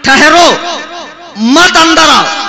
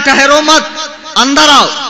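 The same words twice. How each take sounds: First: There is a pause right after 'ठहरो'. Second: There is a pause right after 'मत'.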